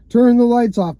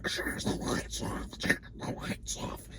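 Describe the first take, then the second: First: Said in the usual way. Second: Slow, breathy whispered repeat. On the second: Retold or imitated. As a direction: whisper it like a voice under static. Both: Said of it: "But it was like".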